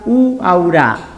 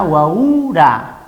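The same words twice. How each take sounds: First: The stress falls on the first U. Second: The stress falls on the second U. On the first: "en la primera U sería uaura" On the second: "El acento en la otra U sería uaura"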